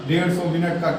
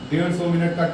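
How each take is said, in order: Both takes have the same delivery.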